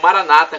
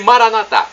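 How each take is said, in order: First: The stress falls on the second-to-last syllable. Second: The stress falls on the final syllable. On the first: This is how evangelicals and Protestants say it. "como dizem nossos irmãos evangélicos e protestantes" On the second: This is how Catholics say it. "como dizemos nós católicos"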